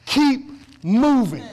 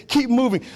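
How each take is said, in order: First: Drawn-out slow. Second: Said in the usual way. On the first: Shown as a demonstration. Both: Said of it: "That's God's word to you today".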